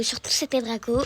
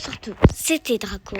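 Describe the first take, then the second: First: Said in the usual way. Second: Name stretched out long at the end; unusual sign-off. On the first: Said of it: "de base, je fais". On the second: Shown as a demonstration. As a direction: hold the last vowel of Draco in a long sign-off. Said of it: "C'est pas mon intro de base".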